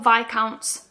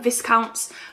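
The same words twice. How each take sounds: First: The S in the first syllable is silent. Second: The S in the first syllable is pronounced. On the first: "Chris calls them Viscounts" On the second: "I've always called them Viscounts"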